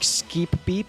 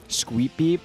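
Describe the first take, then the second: First: The name begins with a plain k sound. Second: The name begins with a kw sound. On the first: "Do you just pronounce that like a, like a K?" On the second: "but there's no U. It's just Q"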